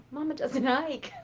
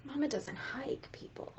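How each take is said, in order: First: Said through a laugh; amused chuckling restatement. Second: Hushed whisper with a grin; mock-secret whisper; confiding whisper. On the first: Acted. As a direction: laugh as you repeat it. Repeats with a laugh. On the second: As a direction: lean in and whisper it. Confiding aside to audience.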